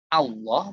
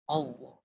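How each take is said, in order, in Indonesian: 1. Vokal pertama adalah bunyi 'a' terbuka. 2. Vokal pertama adalah bunyi 'o'. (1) "Jadi harusnya A" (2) "tapi dibaca O"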